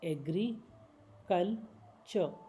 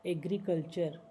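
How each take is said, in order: First: agriculture drawn out slowly in parts; slow syllable by syllable. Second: Said in the usual way. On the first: Shown as a demonstration. Teacher slowing agriculture down for learners.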